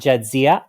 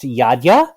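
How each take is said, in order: First: The name starts with a J sound. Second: The name starts with a Y sound. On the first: This is the form used in Star Trek. "not Jadzia. I like the Star Trek pronunciation" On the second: This is the original heritage form of the name. "pronounced Yadya"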